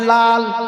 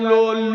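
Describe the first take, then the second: First: The vowel sounds like 'a'. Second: The vowel sounds like 'o'. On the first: The speaker calls it right. "আপনারা সবাই লাল বলেন" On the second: The speaker calls it wrong. "লোল লোল লুল কিছু না"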